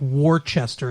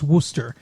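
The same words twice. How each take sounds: First: Every written syllable is pronounced in full. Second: The word is squeezed into fewer syllables. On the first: The speaker calls it wrong. "it's spelled like Worcester" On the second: The speaker calls it right. "it's pronounced Worcester"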